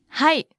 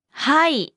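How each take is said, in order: First: Said in the usual way. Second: はい stretched out slowly; slow model. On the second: Shown as a demonstration. Teacher breaks down the word for yes, slowly. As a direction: draw out the vowels in はい.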